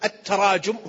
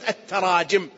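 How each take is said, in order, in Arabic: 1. الحركة بعد j هي u. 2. الحركة بعد j هي i. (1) "بعض الناس يقول التراجم هو التقاذف" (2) "بكسر الجيم"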